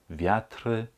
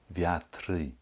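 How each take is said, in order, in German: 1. Ein zusätzlicher e-Laut folgt auf das End-r. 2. Ein zusätzlicher y-Laut folgt auf das End-r. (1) "Ab und zu höre ich ein E oder ein Y" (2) "Ab und zu höre ich ein E oder ein Y"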